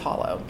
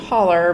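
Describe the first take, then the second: First: The word ends in an 'oh' sound. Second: The word ends in an 'er' sound. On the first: This is the word's actual form. "but the word's hollow" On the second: This is how local people say it. "they would pronounce it holler"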